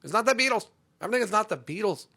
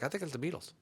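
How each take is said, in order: First: High, loud exasperated correction; mock outrage, pitched up and loud; indignant correction. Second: Soft, unsure imitation of a listener; quiet mock-clueless guessing. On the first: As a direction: snap back at the wrong guess. Indignantly corrects the quoted guess. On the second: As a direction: guess offhandedly, like someone who doesn't know music. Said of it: "they'll be like".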